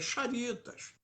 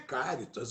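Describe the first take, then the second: First: The name begins with a soft sh sound. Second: The name begins with a hard k sound. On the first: The speaker calls it right. "a pronúncia é Charitas" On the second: The speaker calls it wrong. "a pronúncia não é Cáritas"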